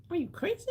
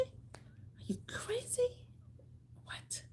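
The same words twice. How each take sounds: First: Said in the usual way. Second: Breathy, much softer whispered repeat of "Are you crazy?". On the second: Real, not acted.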